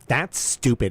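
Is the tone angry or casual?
angry. It is said in a harsh, angry tone. The speaker is attacking the person. The speaker calls it wrong. "the way most people read it"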